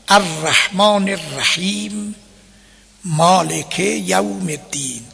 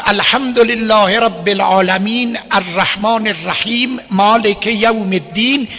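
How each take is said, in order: First: Slow recitation with a breath and stop after each verse; measured Quran recitation, one verse per breath; pausing between verses. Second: Verses run together in one breath with no stops; faulty one-breath recitation; all in one breath. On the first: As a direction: take a breath, then say الرحمن الرحیم and مالک یوم الدین slowly. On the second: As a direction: rush الحمدلله through الدین without breathing. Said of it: "یک نفس خون". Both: Shown as a demonstration.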